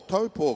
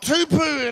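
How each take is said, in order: First: The first syllable sounds like 'toe'. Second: The first syllable sounds like 'too'. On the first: The speaker calls it right. "we are here in Taupo" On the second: The speaker calls it wrong. "Not Tupu"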